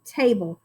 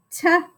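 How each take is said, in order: First: Said in the usual way. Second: "Ta-able" as a short t, pause, long ay, then bul; sounding out. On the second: Shown as a demonstration. Teacher checks the answer with pupils, sounding out. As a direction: split "Ta-able" into stretched separate sounds. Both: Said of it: "let's check this one".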